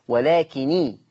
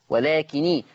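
No difference in how they are said.

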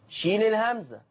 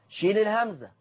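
No difference in how they are said.

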